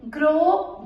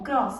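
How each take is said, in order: First: "grow" ending on a rising open o; masculine pronunciation. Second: "gross" with sounded s, falling; feminine pronunciation. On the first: Teacher showing the exception, "grow" with silent s. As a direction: leave "grow" without any s. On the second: Teacher showing the exception, "gross" with final s. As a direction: close "gross" on an s. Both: Shown as a demonstration. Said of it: "double एस E".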